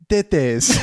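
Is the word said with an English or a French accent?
French. The word is said with a French accent. "it says it in a French accent"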